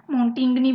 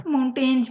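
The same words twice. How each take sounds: First: "माउंटिंगनी" said like "maun-ting-nee"; alternative pronunciation. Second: "माउंटेन्स" said like "maun-tenj"; alternative pronunciation. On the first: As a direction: say "माउंटिंगनी" in three beats, ending in "nee". ("माउंटिंगनी" का दूसरा उच्चारण, आख़िर में "नी") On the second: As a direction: say "माउंटेन्स" in two beats with a buzzed ending. ("माउंटेन्स" का दूसरा उच्चारण, "माउन-टेंज" जैसा) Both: Shown as a demonstration. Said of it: "भी बोलते हैं".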